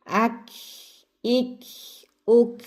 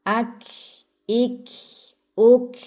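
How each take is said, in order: No difference in how they are said.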